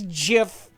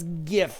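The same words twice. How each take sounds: First: It starts with a soft J sound. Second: It starts with a hard G sound. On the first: "So officially it's GIF" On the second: "In any sane world, it's GIF. Because the G is for graphic"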